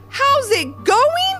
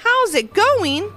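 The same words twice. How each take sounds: First: Even higher, slow, near-squeak of disbelief; exclaiming harder. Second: Higher, louder, slow disbelieving repeat; exclaiming. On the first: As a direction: push the repeat to a shrill peak of shock. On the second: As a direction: echo the question in shock. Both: Acted. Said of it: "exclaimed Levi".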